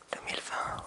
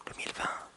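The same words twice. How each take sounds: The two takes are said the same way.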